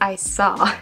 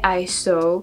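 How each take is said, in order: First: The word 'saw' has an American-sounding vowel. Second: The word 'saw' has a British-sounding vowel. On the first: The speaker calls it right. "But it's I saw" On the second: The speaker calls it wrong. "I keep saying I saw, and I do not know why. I do believe it's because British say like this"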